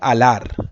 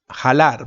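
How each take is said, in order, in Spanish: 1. La palabra empieza directamente con un sonido vocálico. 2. La palabra empieza con un sonido consonántico aspirado. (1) "se dice alar"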